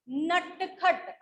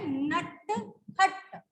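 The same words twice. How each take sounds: First: नटखट drawn out very slowly; slow clear word. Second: नटखट very slow, each sound held; slow sounded word. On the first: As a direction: stretch नटखट for dictation. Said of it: "अगर मैं बोलूं नटखट". (नटखट धीरे धीरे साफ़ बोलकर) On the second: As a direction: hold नटखट so every sound is heard. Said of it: "किस किस की साउंड आ रही है?". (नटखट बहुत धीरे, हर ध्वनि पकड़कर) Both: Shown as a demonstration.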